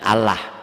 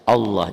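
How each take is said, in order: First: The L sound is light and thin. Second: The L sound is heavy and dark. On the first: The speaker calls it wrong. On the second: The speaker calls it right. "lafaz Allahnya dibaca tebal"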